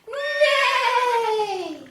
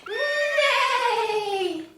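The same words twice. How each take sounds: The two takes are said the same way.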